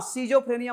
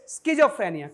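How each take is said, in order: First: It begins with a plain 'see' sound. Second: It begins with an 'skiz' sound. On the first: The speaker calls it wrong. "सीजोफ्रेनिया मत पढ़िएगा" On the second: The speaker calls it right. "It's स्किज़ोफ्रेनिया"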